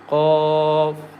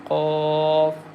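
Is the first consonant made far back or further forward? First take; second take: far back; far back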